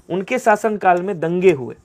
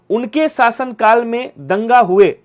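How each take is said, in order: First: "दंगे" given a clear falling stress at normal pace; corrected version. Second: Slow reading of the wrong sentence. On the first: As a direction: state the right form, leaning on "दंगे". (सही रूप, "दंगे" पर ज़ोर) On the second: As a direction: read "उनके शासनकाल में दंगा हुए" slowly, word by word, as the faulty version. (गलत वाक्य को धीरे-धीरे पढ़ना) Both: Shown as a demonstration. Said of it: "नहीं, उनके शासनकाल में दंगा नहीं हुए".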